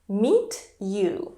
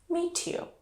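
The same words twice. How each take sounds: First: The t and y are kept separate. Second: The t and y merge into a ch sound.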